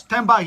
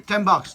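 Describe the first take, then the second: First: "Ten bucks" repeated louder, punching "bucks" with a falling tone; stress on bucks. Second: Said in the usual way. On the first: Shown as a demonstration. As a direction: hit "bucks" hard in disbelief.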